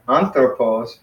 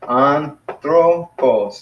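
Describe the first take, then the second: First: Said in the usual way. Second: "anthropos" very slowly, broken into three syllables, higher pitch. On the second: Shown as a demonstration. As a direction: sound out "anthropos" as an-thro-pos. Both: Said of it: "three syllables".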